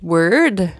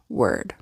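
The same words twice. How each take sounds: First: The end of the word is tense. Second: The end of the word is relaxed. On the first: The speaker calls it wrong. "I'm going to pronounce it like you did" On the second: The speaker calls it right. "Just like just chill, relax at the end"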